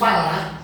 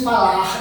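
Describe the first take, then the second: First: The final r is dropped. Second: The final r is clearly sounded. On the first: The speaker calls it wrong. "dizemos falar, não é? De uma maneira errada" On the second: The speaker calls it right. "nós não pronunciamos, nós não dizemos falar"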